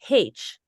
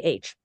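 First: The letter is said the Irish Catholic way. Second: The letter is said in the speaker's everyday way. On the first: "they pronounce the letter H as they do in the rest of Ireland" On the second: "we say H"

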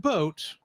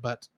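First: The vowel is long, sounding like 'boat'. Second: The vowel is short, sounding like 'butt'. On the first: It is the standard pronunciation. The speaker calls it right. "we'll say it right the right way this time" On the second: It copies the pronunciation heard in the film. The speaker calls it wrong. "the way they said it in the movie"

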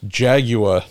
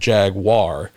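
First: It is said with no w sound after g. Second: It is said with a w sound after g. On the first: "there's no W in Jaguar" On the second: "how we in America mispronounce"

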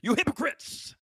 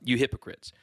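First: It is exclaimed forcefully. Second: It is said flatly, without exclamation.

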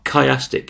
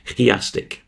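First: It is said with a plain English pronunciation. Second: It is said with a Greek-style pronunciation.

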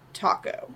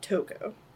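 First: The name is said like the food 'taco'. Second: The name is said with an 'oh' vowel first. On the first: The speaker calls it wrong. "when I said taco, I was like, that's wrong" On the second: The speaker calls it right.

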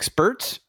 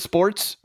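First: The vowel sounds like 'ur', as in spurts. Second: The vowel sounds like 'or', as in sports. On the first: "I've been pronouncing it spurts" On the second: "Is it sports?"

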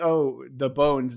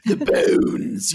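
First: It is said in a plain, ordinary voice. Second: It is said in a mad scientist voice.

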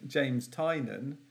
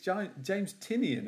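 First: The surname is said as two syllables, 'Tie-nan'. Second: The surname is said as three syllables, 'Tie-nee-on'. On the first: The speaker calls it wrong. "I keep pronouncing James Tynan" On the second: The speaker calls it right. "It's James Tynion, isn't it? That's how it's spelled"

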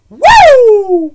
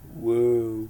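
First: The woo is high-pitched. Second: The woo is low-pitched.

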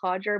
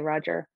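First: The name starts with an H sound. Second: The name starts with an R sound. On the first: This is how it is said in Portuguese. "In Brazil, I believe it's pronounced Roger, because of the first letter in Portuguese, it's pronounced as H" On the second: This is an easier form used in England. "For people in maybe in England that struggle to pronounce it, it's easier to just say Roger"

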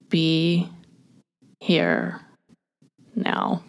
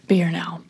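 First: It is said slowly. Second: It is said fast.

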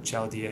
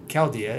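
First: The word begins with a CH sound. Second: The word begins with a hard K sound. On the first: The speaker calls it wrong. "as you call it" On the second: The speaker calls it right. "as I like to call it"

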